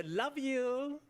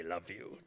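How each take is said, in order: First: Bright high sing-song love you; mock American goodbye. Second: Said in the usual way. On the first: Foreigner mimicking families after lunch, sing-song. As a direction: imitate a cheery American parting.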